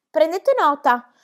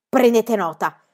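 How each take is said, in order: First: Slow, high, eager echo; encouraging echo. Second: Icy. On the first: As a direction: urge the secretaries on, drawn out. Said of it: "le incoraggiò". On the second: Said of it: "con voce gelida". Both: A narrator's reading.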